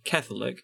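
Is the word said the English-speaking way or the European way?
English-speaking. The word has the English-speaking pronunciation.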